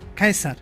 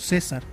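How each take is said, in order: First: The name begins with a hard k sound. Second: The name begins with a soft s-like sound. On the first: This is how the ancient Romans said it. "sino Caesar, que se convirtió en Kaiser" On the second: This is the modern way of saying it. "no la pronunciaban como nosotros"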